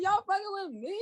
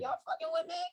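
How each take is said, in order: First: High, laughing incredulous repeat; milder disbelief. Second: Very high, incredulous question; mock disbelief. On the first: Retold or imitated. Repeating her reaction, milder high disbelief. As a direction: repeat it still amazed. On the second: Reacting to podcast success, high disbelieving question. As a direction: ask it like you can't believe it. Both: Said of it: "I'm like".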